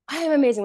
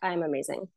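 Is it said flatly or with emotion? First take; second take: with emotion; flatly. First: It is said with strong emotion. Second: It is said flatly, without emotion.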